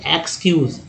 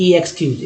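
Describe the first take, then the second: First: एक्सक्यूज starting with short "ek", one word; short initial vowel. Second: ई एक्सक्यूज with a long "ee" before "ekskyuz"; separate letter-name E. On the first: Teacher shows how it is read, short "ek" start. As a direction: say एक्सक्यूज as "ek-skyuz". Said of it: "क्या कहेंगे?". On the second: Teacher shows what not to say, separate long E first. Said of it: "ना कि ऐसे बोलेंगे". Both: Shown as a demonstration.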